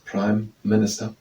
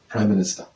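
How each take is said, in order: First: The two words are said separately, with a break. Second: The two words are said in one run. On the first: "I'm saying it as two words" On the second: "most people are saying it in one through"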